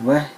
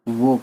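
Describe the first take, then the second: First: The word ends in an 'ah' sound with h. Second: The word ends in a plain 'o' sound. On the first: The speaker calls it wrong. "Urdu में वह नहीं कहते हैं ना" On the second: The speaker calls it right. "वो कहते हैं"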